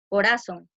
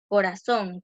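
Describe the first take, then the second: First: The stress falls before the last syllable. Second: The stress falls on the last syllable. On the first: The speaker calls it wrong. "Si no le ponemos tilde, diría" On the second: The speaker calls it right. "que es una palabra aguda"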